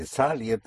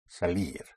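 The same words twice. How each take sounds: First: "salir" with the push wrongly on the first syllable, SA-lir; mispronounced stress. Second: "salir" with the push on the last syllable, sa-LIR; low, soft "salir", leaning on the long -lir; correct final stress. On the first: Teacher shows what won't be understood, misplaced first-syllable stress. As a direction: stress the "sa" of "salir", let the ending fall. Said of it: "you may not be understood". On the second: Teacher corrects the student's word, stress on the ending. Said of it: "It's salir". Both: Shown as a demonstration.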